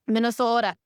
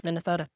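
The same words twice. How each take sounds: First: Higher, louder "Minnesota" with a long, rounded O; mock Minnesota accent. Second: Said in the usual way. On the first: Shown as a demonstration. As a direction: playfully lean on the Minnesota "oh" in "Minnesota". Repeats state in mock regional accent.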